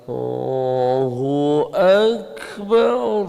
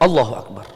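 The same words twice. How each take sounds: First: The phrase is drawn out very slowly. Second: The phrase is said very quickly. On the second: "tidak boleh terlalu cepat, jangan"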